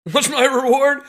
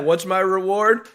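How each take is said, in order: First: Higher, louder incredulous laugh-line; laughing repeat. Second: Said in the usual way. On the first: Real, not acted. Plumber repeating his question with a bitter laugh. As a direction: laugh at the absurdity.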